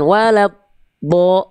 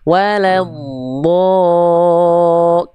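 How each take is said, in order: First: The D sound is cut off abruptly. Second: The D sound is drawn out smoothly. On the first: The speaker calls it wrong. "jangan walad bo, itu kan terhenti tuh" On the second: The speaker calls it right. "dialirkan suara sambil dia istitolah ... nah menyusur"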